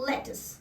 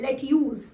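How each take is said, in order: First: The word ends with a short 'tus' sound. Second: The word ends with a 'tyooz' sound. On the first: The speaker calls it right. "ये word का actual pronunciation है लेटस" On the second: The speaker calls it wrong. "अक्सर लोग क्या करते हैं, इस particular vegetable को लेट्यूज बोलते हैं"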